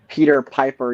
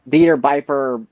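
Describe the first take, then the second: First: The first word begins with a P sound. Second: The first word begins with a B sound. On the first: "if you said uh" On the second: "you'd say uh"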